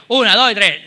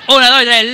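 First: Said in the usual way. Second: Cuenta fuerte. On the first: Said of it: "como si fuéramos gilipollas". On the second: Shown as a demonstration. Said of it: "Venga, venga, venga".

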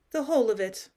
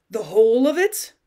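First: Said in the usual way. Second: Loud, rising disbelief; incredulous question. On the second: A narrator's reading. Cousin asking about the lost dowry, incredulous. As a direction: query it with a sharply lifted end.

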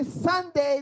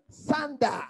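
First: Said in the usual way. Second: Sunday ending in "dah" rather than "day"; local Barbadian pronunciation. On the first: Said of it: "They don't say Sunday". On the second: Shown as a demonstration. Preacher showing how locals say it, Sunday as "Sun-dah". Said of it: "they say Sunday".

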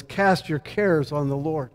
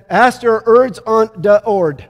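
First: Said in the usual way. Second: Put-on "Ask er erds on de ord" said slowly, dropping every R and L like a three-year-old; "erds" for cares and "ord" for Lord, slow childlike mispronunciation; toddler speech. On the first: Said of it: "what he was trying to say was". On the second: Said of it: "couldn't say his R's or his L's".

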